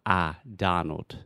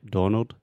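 First: "Donald" with an open "ah" in the first syllable; ah vowel. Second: "Donald" with a rounded "oh" in the first syllable; students' wrong vowel. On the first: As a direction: slowly model "Donald" as DAH-nald. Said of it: "the first sound is ah". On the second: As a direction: imitate students saying "Donald" as DOH-nald. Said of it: "most of my students want to say". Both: Shown as a demonstration.

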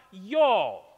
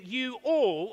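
First: Put-on Southern drawl, low and loud; Southern accent. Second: Said in the usual way. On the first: Shown as a demonstration. Preacher showing how the South says it, Southern accent. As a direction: drop into a hammed-up Southern twang. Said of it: "How's my accent?". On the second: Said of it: "Jesus is really saying".

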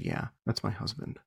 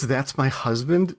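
First: Quiet, offhand retold admission; nonplussed. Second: "That's my husband" slowly, at full voice; weighty repetition. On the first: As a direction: drop it softly, as if it's nothing. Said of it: "she seemed nonplussed at this". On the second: Retold or imitated. Repeats the shocking words.

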